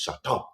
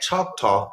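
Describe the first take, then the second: First: It is said with a put-on French accent. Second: It is said in a plain American accent.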